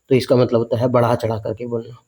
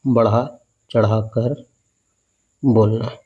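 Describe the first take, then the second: First: Said in the usual way. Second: Slow, each word stretched out for dictation; slow emphatic repeat. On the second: Shown as a demonstration. Teacher repeating the meaning slowly for students. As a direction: spell it out slowly so it sticks.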